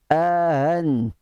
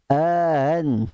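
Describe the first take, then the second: Both takes have the same delivery.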